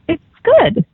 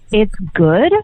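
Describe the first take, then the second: First: The voice falls at the end. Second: The voice rises at the end. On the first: "he was real quiet, and then he went" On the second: "With an upward inflection"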